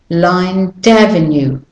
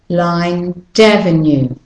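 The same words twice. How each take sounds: The two takes are said the same way.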